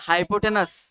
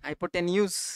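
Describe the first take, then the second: First: The last syllable sounds like 'nus'. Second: The last syllable sounds like 'nyoos'.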